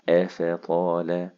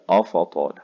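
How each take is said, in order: First: The opening glottal stop sounds light and thin. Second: The opening glottal stop sounds heavy and emphatic. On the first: The speaker calls it right. "الهمزة دائما مرققة" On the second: The speaker calls it wrong. "الهمزة فيهم طلعت مني غلط، طلعت مفخمة"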